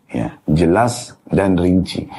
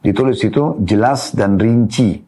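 First: Jelas dan rinci drawn out slowly, jelas leaned on; slow emphatic repeat. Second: Said in the usual way. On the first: Shown as a demonstration. Teacher repeating the footnote for students, slow and emphatic.

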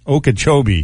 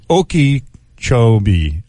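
First: Said in the usual way. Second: Okeechobee broken into slow pieces, oh-kee, choh-bee; slow, halting Okeechobee with a gap before the chobee; sounding it out. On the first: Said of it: "There you go". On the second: Real, not acted. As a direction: work through Okeechobee piece by piece. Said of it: "how do you say that?".

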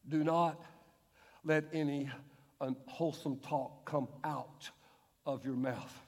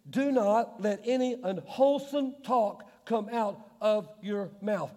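First: Soft, low, slow rereading; quiet pondering. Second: Verse read slowly, each word weighed; slow emphatic reading. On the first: Preacher rereading verse to congregation, hushed and low. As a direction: drop to a hushed low murmur. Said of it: "Do you think Paul meant that". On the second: Preacher to congregation, slow weighty verse reading. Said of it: "It says". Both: Shown as a demonstration.

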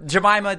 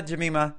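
First: "Jemima" said juh-MY-muh; "Jemima" with a long I; trying out pronunciation. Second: "Jemima" said juh-MEE-muh; "Jemima" with an EE sound; trying out pronunciation. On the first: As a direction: say "Jemima" with MY in the middle. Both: Shown as a demonstration. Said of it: "give us the correct pronunciation of it".

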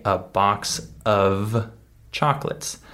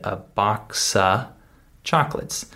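First: "of" sounded out with its F, set apart; full "of". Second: "of" as a bare "uh", no F; reduced "of". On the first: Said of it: "Notice that I didn't say". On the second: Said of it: "I skipped over the F sound". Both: Shown as a demonstration.

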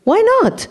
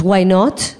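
First: Much higher, mock-indignant retort; exaggerated squawk of protest; husband's challenge. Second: Lightly voiced daughter, simple rising question; mild retold curiosity; daughter's casual question. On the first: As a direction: imitate a husband butting in, high-pitched and falling. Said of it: "then my husband, who's driving, turns around and goes". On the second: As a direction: ask it innocently, rising at the end. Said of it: "she goes".

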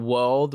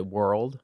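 First: WORLD without the R, long open vowel; British world. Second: WORLD with a hard American R. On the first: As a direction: say WORLD the English way, no R sound. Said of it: "You know, you guys say world". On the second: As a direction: curl the tongue for the R in WORLD. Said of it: "you guys say world". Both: Shown as a demonstration.

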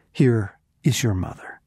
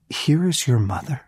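First: Said in the usual way. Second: Higher, amazed questioning echo; incredulous. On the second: Retold or imitated. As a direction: repeat it in sheer disbelief, lifting at the end. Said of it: "you have got to be kidding me".

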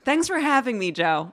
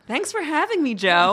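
First: Formal broadcast greeting; news anchor voice. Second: Bright formal radio greeting; radio interview voice. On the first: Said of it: "You did it again". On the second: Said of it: "like a radio interview". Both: Real, not acted.

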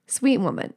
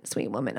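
First: Said in the usual way. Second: Much softer, lower repeat; soft fond echo. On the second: Real, not acted. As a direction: murmur it fondly. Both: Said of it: "sweet woman repeated".

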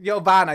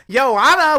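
First: Giovanna with a clear V sound; correct name. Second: Joanna with a J, no V; wrong name. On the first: Shown as a demonstration. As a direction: stress the V in Giovanna. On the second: Retold or imitated. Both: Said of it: "you gotta put the V on it".

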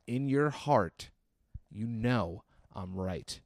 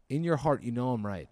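First: Drawn-out earnest insistence; mock-grave slow repetition; slow, solemn appeal. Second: Said in the usual way. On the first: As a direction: press the point slowly, word by word. Same appeal repeated slowly for weight.

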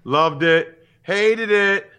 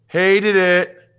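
First: Loud, high mock critic verdict; hammed-up In Living Color catchphrase; sketch catchphrase. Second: Louder, higher mock critic catchphrase; hammed-up Texas-free In Living Color quote. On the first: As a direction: snap it out like a TV critic. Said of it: "In Living Color back in the nineties". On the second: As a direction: belt it out like a sketch show critic. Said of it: "You know what that's from".

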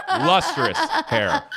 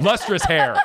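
First: Lustrous hair drawn out high and slow; high slow silly voice. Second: Said in the usual way. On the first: Shown as a demonstration.

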